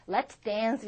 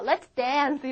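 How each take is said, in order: First: Lower, more restrained invitation; understated polite version; ballroom take. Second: A touch louder, casual invitation to a friend; lightly energetic, informal; casual nightclub take. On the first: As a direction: say it as if at a formal ball. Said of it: "무도회 같은 데서 할 때". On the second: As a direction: toss it off to a friend on the dance floor. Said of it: "이러지만은". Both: Shown as a demonstration.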